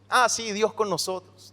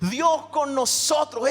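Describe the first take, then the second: First: It sounds bored and dismissive, like a cliché. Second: It sounds earnest and full of wonder.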